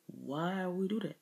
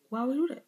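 First: Quieter, falling question on "Why we do that". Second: Much higher "Why we do that", rising sharply; high rising question. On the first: Speaker recalling a sudden realisation, quiet falling "Why we do that". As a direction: ask "Why we do that" softly, dropping at the end. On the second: Speaker repeating the English question about accents, high rising "Why we do that". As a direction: ask "Why we do that" high, lifting at the end. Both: Shown as a demonstration.

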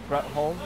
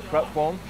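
No difference in how they are said.

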